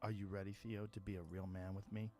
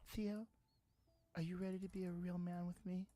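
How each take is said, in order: First: It is said in his normal voice. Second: It is said in a put-on girl's voice.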